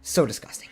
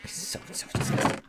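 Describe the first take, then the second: First: Said in the usual way. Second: Breathy whisper of disgust; hushed, repulsed whisper. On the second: Real, not acted. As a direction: drop to a whisper, grossed out. Repeating disgust about the toenail.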